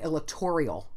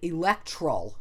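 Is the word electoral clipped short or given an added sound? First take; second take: added sound; clipped short. First: An extra sound is inserted near the word's end. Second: The middle syllables are squeezed together and shortened. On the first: "they throw in the extra letter" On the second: "like eliding again, not doing the toral"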